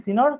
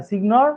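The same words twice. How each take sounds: First: সিনর said with a silent g, like senyor; the proper spoken form সিনর, g dropped; correct pronunciation. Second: সিগনর read as spelt, with the g sounded; the spelt-out reading সিগনর, g pronounced; letter-by-letter spelling read. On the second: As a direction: say সিগনর with a hard g, as written. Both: Shown as a demonstration. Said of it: "যেটা উচ্চারণ হচ্ছে সিনর".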